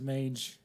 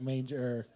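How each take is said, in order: First: Said in the usual way. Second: "manger" with an R added at the end; audience member's accent. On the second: Retold or imitated. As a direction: say "manger" as his accent would, ending in an R. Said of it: "but with his accent".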